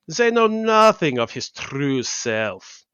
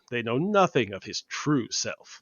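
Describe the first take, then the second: First: It is said in a put-on German accent. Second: It is said without a German accent. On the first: The speaker calls it right. "redo it with a lean in on the Russian and the German" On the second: The speaker calls it wrong. "you're not gonna lean into some weird German like sounding thing for Nightcrawler"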